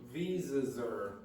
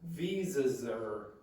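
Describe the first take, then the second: First: The word 'are' is contracted onto 'visas'. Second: The word 'are' is contracted onto 'visas'.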